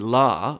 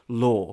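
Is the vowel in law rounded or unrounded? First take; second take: unrounded; rounded. First: It has an unrounded American vowel. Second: It has a rounded British vowel.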